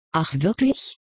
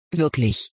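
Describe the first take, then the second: First: Gently doubtful question rising at the end; mildly unconvinced professor. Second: "Wirklich?" said firmly, falling flat at the end like a statement; steady, certain reply; firm assertion. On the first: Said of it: "zweifelte der Professor mild". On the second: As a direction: insist on "Wirklich?", the pitch dropping. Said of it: "behauptete Tasuin fest". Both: A narrator's reading.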